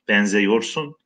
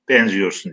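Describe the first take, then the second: First: The vowel after benz sounds like e. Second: The vowel after benz sounds like i. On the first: The speaker calls it wrong. "Benzeyorsun diye okumuyoruz" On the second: The speaker calls it right. "Benziyorsun diye okuyoruz"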